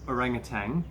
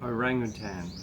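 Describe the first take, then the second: First: The word ends with a hard G sound. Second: The word ends with a plain N sound. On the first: The speaker calls it wrong. "like a G on the end" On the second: The speaker calls it right. "it ends in an N, so it's orangutan"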